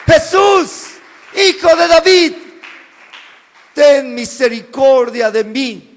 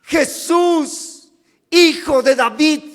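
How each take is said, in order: First: Desperate cry. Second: Raised voice calling. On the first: Blind beggar crying out to Jesus, desperate loud shout. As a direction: cry out to a passing king for mercy. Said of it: "Bartimeo empieza a clamar". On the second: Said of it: "Levanta la voz y dice". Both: Acted.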